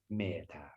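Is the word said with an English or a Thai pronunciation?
Thai. It is said softly with a Thai pronunciation.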